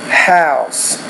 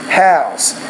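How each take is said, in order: No difference in how they are said.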